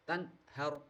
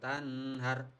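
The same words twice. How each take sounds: First: The n sound is pronounced clearly and distinctly. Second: The n sound is blurred, not clearly pronounced. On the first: The speaker calls it right. "harus jelas" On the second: The speaker calls it wrong. "Tidak boleh"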